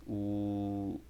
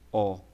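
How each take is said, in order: First: "O" as a closed vowel, like ô. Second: "O" as an open vowel, like ó. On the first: Teacher showing omega's sound, closed "O". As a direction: say a circumflex "O", rounded and closed. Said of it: "mais pra um circunflexo". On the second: Teacher showing omicron's sound, open "O". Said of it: "o som da pronúncia dela é diferente do ômicron". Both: Shown as a demonstration.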